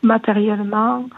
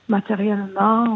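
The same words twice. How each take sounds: The two takes are said the same way.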